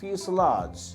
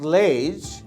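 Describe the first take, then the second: First: The ending is said like 'lazh'. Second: The ending is said like 'lej'. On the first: The speaker calls it right. "it is somewhat like ফিউসেলাজ" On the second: The speaker calls it wrong. "not লেজ"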